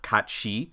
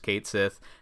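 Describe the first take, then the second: First: It sounds like 'Katshi', run together as one word. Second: It sounds like English 'Kate Sith', two clear words. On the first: This is the original form in the source language. "the original Gaelic pronunciation" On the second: This is the form the game's makers use. "the way that Final Fantasy producers pronounce it"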